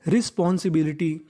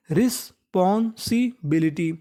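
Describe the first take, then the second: First: Said in the usual way. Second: Slow spelled-out demo. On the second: Shown as a demonstration. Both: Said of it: "responsibility का मतलब होता है जिम्मेदारी".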